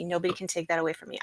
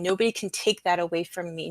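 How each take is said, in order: First: Softer and fast, muttered to herself; softer, quicker repeat. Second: Said in the usual way. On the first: Real, not acted. Repeating to herself that nobody can take her memory, quickly and softer. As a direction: rush it under your breath the second time.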